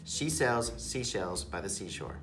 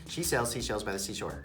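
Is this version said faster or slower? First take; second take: slower; faster. First: It is said quickly, but slower than the next. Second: It is said even faster than before. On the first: "can you do the tongue twister really quick?"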